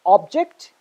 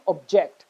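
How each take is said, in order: First: OBject, stressed on the first syllable. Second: ObJECT, stressed on the second syllable. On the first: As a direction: say "object" as the noun, punching "ob". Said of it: "stress on the first syllable". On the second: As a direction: say "object" as the verb, weight on "ject". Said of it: "stress on the second syllable". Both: Shown as a demonstration.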